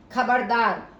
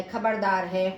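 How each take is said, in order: First: खबरदार called out louder, falling at the end; warning shout. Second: Said in the usual way. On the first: Shown as a demonstration. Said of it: "चेतावनी बोधक". (खबरदार चेतावनी भरे ऊँचे स्वर में) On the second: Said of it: "तो ये जैसे सावधान शब्द है".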